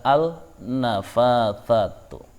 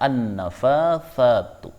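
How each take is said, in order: First: The l is pronounced before the consonant. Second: The l merges into the following consonant. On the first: The speaker calls it wrong. "Tidak boleh membaca" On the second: The speaker calls it right. "Harus dibaca"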